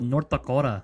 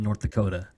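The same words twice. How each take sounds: First: It is said in a local North Dakota accent. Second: It is said in a plain, non-local accent. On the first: The speaker calls it right. "you're right" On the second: The speaker calls it wrong. "didn't say it right"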